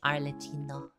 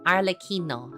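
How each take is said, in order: First: The name is said with an English-style pronunciation. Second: The name is said with an Italian-style pronunciation. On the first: The speaker calls it wrong. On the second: The speaker calls it right.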